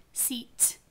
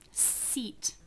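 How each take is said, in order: First: The final t is released with a puff of air. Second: The final t is released with a puff of air.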